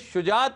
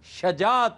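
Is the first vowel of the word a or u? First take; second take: u; a. First: The first vowel is a short u sound. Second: The first vowel is a short a sound. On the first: The speaker calls it wrong. "ये शुजात नहीं होता" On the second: The speaker calls it right. "शजात होता है। ये जबर के साथ है"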